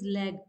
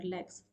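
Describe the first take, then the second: First: The final s sound is dropped. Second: The final s sound is pronounced. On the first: The speaker calls it wrong. "So what they say is leg" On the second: The speaker calls it right. "this is the word here"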